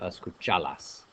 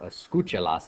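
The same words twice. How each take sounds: First: The stress falls on the syllable cha. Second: The stress falls on the syllable cu. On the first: The speaker calls it wrong. "instead of" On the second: The speaker calls it right. "where the natural accent used to be"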